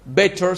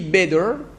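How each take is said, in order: First: It is said in a British accent. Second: It is said in an American accent. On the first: "c'est l'accent britannique" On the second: "c'est l'accent américain"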